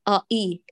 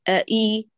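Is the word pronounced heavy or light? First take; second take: heavy; light. First: The sounds are pronounced heavy and thick. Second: The sounds are pronounced light and thin. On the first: The speaker calls it wrong. "لا تقولي آئي، لا تفخميها" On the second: The speaker calls it right. "رققيهما"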